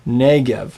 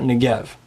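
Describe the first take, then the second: First: Negev with a full NEH and light gev; accent the start of Negev; stress on first syllable. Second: Negev with reduced first vowel, stressed GEV; stress on last syllable. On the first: Teacher summing up the correct form, Negev stressed on NEH. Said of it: "two common ones that people get wrong". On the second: Teacher summing up what's wrong, Negev stressed on GEV. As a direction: put the accent on Negev's second syllable. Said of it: "not Negev". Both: Shown as a demonstration.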